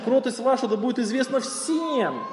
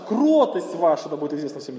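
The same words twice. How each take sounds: First: The word всем carries the main stress. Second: The word кротость carries the main stress. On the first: It should be known to everyone, even difficult people. "сделайте ударение на слово «всем»" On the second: It is gentleness, not something else, that should be known. "Не грубость ваша. Не яркость ваша"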